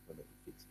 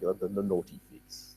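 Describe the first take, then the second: First: Savouring whisper. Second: Said in the usual way. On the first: Shown as a demonstration. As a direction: whisper the naughty figs with relish. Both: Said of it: "I just love the King James Version of that".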